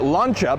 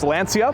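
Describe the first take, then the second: First: The middle consonant is said as a ch sound. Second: The middle consonant is said without a ch sound. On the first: The speaker calls it right. "it's actually Lancia because in Italian ... it's more of a ch sound" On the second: The speaker calls it wrong. "a lot of people often refer to this company as Lancia"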